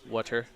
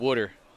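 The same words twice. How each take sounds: First: The word is said with standard pronunciation. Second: The word is said with a New Jersey accent. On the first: "If I actually pronounce it correctly" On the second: "it's a hard O too"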